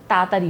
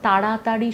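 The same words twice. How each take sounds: First: "তাড়াতাড়ি" rushed, its syllables run together without depth; hurried, shallow pronunciation. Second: "তাড়াতাড়ি" with every syllable given its depth; full, careful pronunciation. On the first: Singer showing how haste spoils diction, "তাড়াতাড়ি" slurred short. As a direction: say "তাড়াতাড়ি" hastily, swallowing the middle. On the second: Singer explaining careful diction, "তাড়াতাড়ি" fully articulated. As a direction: say "তাড়াতাড়ি" unhurried, each syllable complete. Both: Shown as a demonstration. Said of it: "যতটা depth নিয়ে আমাকে উচ্চারণ করতে".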